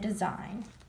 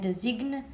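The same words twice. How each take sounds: First: No g sound is heard before the n. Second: A g sound is pronounced before the n. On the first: The speaker calls it right. "the g is silent" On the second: The speaker calls it wrong. "We don't say"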